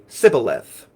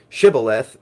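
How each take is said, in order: First: The word begins with an S sound. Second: The word begins with an SH sound. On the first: "they would instead say sibboleth" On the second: "they couldn't say shibboleth"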